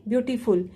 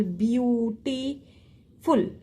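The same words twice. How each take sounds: First: Said in the usual way. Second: "beautiful" very slow, drawn out beau, ti, ful; syllable by syllable. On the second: Shown as a demonstration. Teacher showing what one syllable is, "beautiful" drawn out in parts. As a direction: stretch "beautiful" with gaps between syllables. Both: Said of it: "is complete one syllable".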